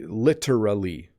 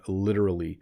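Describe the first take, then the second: First: The T is a crisp hard T. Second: The T is a soft D-like flap. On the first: This is an extremely proper way to say it. "if I wanted to speak in an extremely proper way" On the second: This is how people normally say it. "it sounds more like a D"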